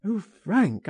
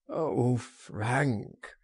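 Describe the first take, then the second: First: High, pleading exclamation; anguished cry. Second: Groaned. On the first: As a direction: cry out to a friend in distress. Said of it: "he cried". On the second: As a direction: groan it out, giving up. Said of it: "he groaned". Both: A narrator's reading.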